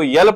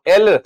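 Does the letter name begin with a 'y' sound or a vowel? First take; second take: y sound; vowel. First: The letter name begins with a 'y' sound. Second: The letter name begins with a vowel sound. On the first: The speaker calls it wrong. "अगर आपने इसको यल पढ़ लिया तो ... गलत हो जाएगा" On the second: The speaker calls it right. "अब इसको आप एल पढ़ेंगे"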